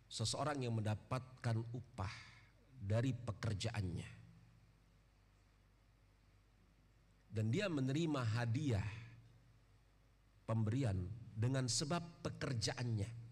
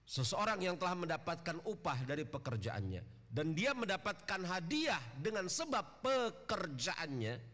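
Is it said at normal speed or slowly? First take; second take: slowly; normal speed. First: It is said more slowly. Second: It is said at normal speed.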